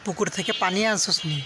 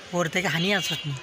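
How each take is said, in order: First: It uses standard forms like pukur and pani. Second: It uses Noakhali forms like hur and hani. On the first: "আমরা বলি" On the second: "ওরা বলে"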